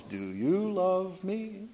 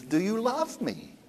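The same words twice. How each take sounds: First: Slow, sung question. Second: Said in the usual way. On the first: Retold or imitated. Tevye sings the question to his wife, slow. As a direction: sing it slowly as a tender song. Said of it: "Then he breaks into song". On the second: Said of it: "He says".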